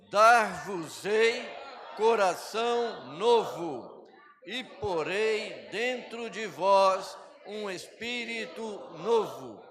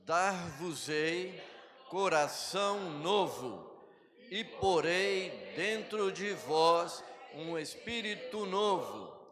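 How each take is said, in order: First: It is read with strong, forceful emphasis. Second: It is read plainly, without extra emphasis.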